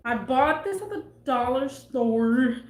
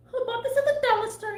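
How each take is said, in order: First: Said in the usual way. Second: High, fast Elmo squeak. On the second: Pretend. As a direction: chirp the line like Elmo. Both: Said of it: "Is that an Elmo voice?".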